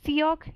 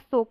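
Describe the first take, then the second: First: It is said as two syllables, 'see-yok'. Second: It is one syllable with a closed 'o' vowel. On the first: "सियोक या सोक नहीं" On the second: "सियोक या सोक नहीं"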